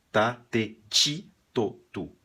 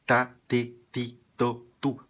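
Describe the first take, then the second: First: "ti" as "tchi", jumping up; Brazilian tchi. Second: "ti" with a hard t, no tch; correct ti. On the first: Teacher showing the Brazilian habit with ti. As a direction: lift and soften "ti" to "tchi". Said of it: "Quando falamos em português". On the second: Teacher giving the correct Spanish syllable row. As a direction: keep "ti" a hard t. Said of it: "O certo seria". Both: Shown as a demonstration.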